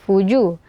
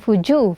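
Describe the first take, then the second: First: The j is crisp with no escaping breath. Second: The j has escaping breath in it. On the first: The speaker calls it right. "tapi fuju" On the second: The speaker calls it wrong. "bukan fuju"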